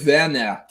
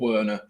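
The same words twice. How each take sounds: First: The name is said with German pronunciation. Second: The name is said with English pronunciation. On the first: The speaker calls it right. "And it's Timo Werner" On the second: The speaker calls it wrong. "not Werner or Werner"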